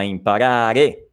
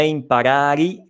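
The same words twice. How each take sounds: First: "imparare" slowly with a clear final e; correct ending. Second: "imparari" with a closing i as the mistaken form; wrong ending. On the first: Teacher modelling the right "imparare" ending. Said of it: "questa E finale". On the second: Teacher demonstrating the learners' mistake "imparari". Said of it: "non è imparari, ma imparare". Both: Shown as a demonstration.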